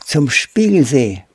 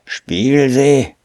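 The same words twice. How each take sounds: First: Put-on high-pitched, hesitant boy's answer; Pole Pole, stammering. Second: High, drawn-out scornful echo; scornful hissing. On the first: Startled boy tells the ape his destination, stammering. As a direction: get the destination out timidly, pitched up. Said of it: "stotterte Pole Pole". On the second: Ape scoffs at the boy's destination, scornful hiss. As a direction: spit it back slowly with contempt. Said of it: "fauchte der Affe und rümpfte verächtlich". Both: A narrator's reading.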